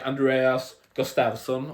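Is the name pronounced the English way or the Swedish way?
English. The name is said with an English pronunciation. The speaker calls it wrong. "You would say like Andreas Gustafsson"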